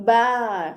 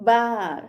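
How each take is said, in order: No difference in how they are said.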